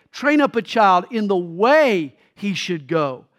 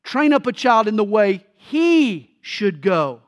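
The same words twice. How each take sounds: First: Put-on Train up a child in the "way" he should go, leaning on "way"; slow, weight the word "way"; stress on way. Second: Put-on Train up a child in the way "he" should go, leaning on "he"; slow, put the weight on "he"; stress on he. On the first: Preacher showing how the verse is usually stressed, leaning on "way". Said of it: "we often emphasize the word way". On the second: Preacher showing the Hebrew reading, stressing "he". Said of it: "the verse emphasizes the word he". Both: Shown as a demonstration.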